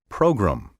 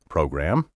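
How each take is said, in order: First: The second syllable is reduced and slurred. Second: The second syllable keeps a full vowel. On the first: The speaker calls it wrong. "slur the gram" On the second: The speaker calls it right. "how I've been pronouncing the word program"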